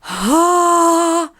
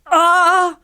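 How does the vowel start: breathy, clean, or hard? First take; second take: breathy; hard. First: The vowel starts with a lot of escaping air. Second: The vowel starts with a sharp glottal attack. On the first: "sans souffle excessif. Donc, on veut pas ah" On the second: "on sent pas de ah"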